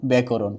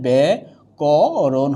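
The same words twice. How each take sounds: First: Said in the usual way. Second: ব্যাকরণ slowly, long "bæ", then "ko-ron"; syllable-by-syllable demo. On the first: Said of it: "কি হবে". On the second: Shown as a demonstration. Teacher showing grammar students the pronunciation, slow syllable demo. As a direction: stretch each syllable of ব্যাকরণ, lower. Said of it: "তাহলে ব্যাকরণ উচ্চারণ যা আছে".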